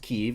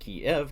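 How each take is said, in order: First: The name is said the Ukrainian way. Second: The name is said the Russian way. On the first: "pronounced Kyiv, is the transliteration from Ukrainian" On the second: "pronounced Kiev, K I E V, is the Russian transliteration"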